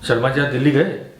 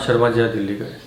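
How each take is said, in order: First: It is said as a question. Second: It is said as a statement.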